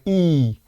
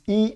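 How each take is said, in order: First: The vowel is held long and accented. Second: The vowel is held briefly. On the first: It stands for agitated will. "like a longer and accentuated E" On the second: It stands for calm, unagitated will. "the shorter I, shorter E"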